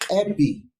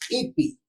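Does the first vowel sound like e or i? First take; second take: e; i. First: The first vowel is a relaxed, open e. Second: The first vowel is a tense, closed i. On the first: "al cambiar como si fuera E, se va a relajar los articuladores" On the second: "Ipi se lee, ¿no ves? Como que sufre eh, los, los articuladores"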